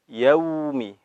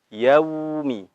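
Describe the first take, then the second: Both takes have the same delivery.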